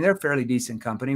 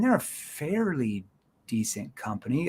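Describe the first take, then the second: First: It is said in a plain, ordinary tone. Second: It is said in a doubting, skeptical tone. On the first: The company is simply being described. The speaker calls it wrong. "let me show you the wrong tone. ... It's just too regular tone" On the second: The speaker doubts the company is that good. The speaker calls it right. "that's kind of like a, like, I'm doubting that"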